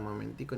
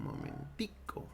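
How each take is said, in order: First: Said in the usual way. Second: "momentico" said slowly and low in a Colombian or Venezuelan lilt. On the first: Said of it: "en España no dicen". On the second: Shown as a demonstration. Teacher showing how Colombians say the diminutive, slow and low. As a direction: stretch out "momentico" the Colombian way, ending on a rise. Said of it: "en Venezuela, en Colombia, dirían".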